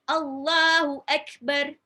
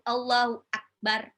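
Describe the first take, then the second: First: The k sound is released strongly. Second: The k sound is weak or missing. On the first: The speaker calls it right. "yang benar itu ada ka-nya itu ada keh, ada uh, sifat syiddahnya" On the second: The speaker calls it wrong. "Jadi bukan Allahu Akbar atau Allahu Akbar. Salah"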